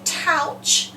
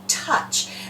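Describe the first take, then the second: First: The vowel sounds like ow in trout. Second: The vowel is a short uh sound. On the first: The speaker calls it wrong. "We don't say" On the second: The speaker calls it right. "we say touch. And that O U is making a short U sound"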